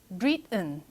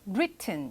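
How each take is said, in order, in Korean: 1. 가운데 t는 목구멍에서 막혀서 나는 소리예요. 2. 가운데 t는 분명하게 터뜨려서 발음합니다. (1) "미국식 영어로 공부를 했을 때는 written 약간 이런" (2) "이렇게 발음을 제대로 합니다"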